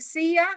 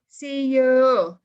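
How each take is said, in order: First: The second word is reduced to a short 'ya'. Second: The second word is a full, clear 'you'. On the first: The speaker calls it right. "when you say see ya" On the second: The speaker calls it wrong. "you don't say see you no it doesn't exist"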